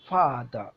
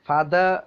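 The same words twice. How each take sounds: First: The stress is on the first syllable. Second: The stress is on the second syllable. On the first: The speaker calls it right. "ഫ എന്നതിലാണ് stress കൊടുക്കുന്നത്" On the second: The speaker calls it wrong. "അങ്ങനെയല്ല നമ്മൾ ഉച്ചരിക്കേണ്ടത്"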